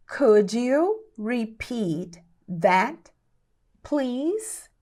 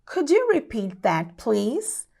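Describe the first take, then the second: First: Very slow, word by word, rising on please; slow teaching pace. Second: Said in the usual way. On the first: Shown as a demonstration. English teacher models asking for a repeat, very slowly. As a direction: spell it out slowly with pauses.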